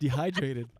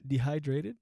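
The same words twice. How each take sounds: First: Dehydrated. with the stress moved to hy, said firmly and falling; corrected stress. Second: Dehydrated? with the stress on de, rising as a question; testing where the stress in Dehydrated falls, unsure; wrong syllable stress. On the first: Fixing the word for the camera, corrected stress on Dehydrated. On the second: Stumbling over a word on camera, trying stress on Dehydrated. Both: Shown as a demonstration. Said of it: "putting emphasis on the wrong syllable".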